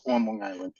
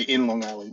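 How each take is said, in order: First: "on" leaned on a little in "on Long Island"; the right local form, lean on "on"; stress on ON. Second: "in Long Island" with a light, plain "in"; the wrong local form, "in" said lightly; wrong preposition in. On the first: New York agent corrects the host, leaning on "on". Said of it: "There is a difference". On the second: New York agent shows locals the wrong form, a light "in". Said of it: "They'll kill me if I say". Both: Shown as a demonstration.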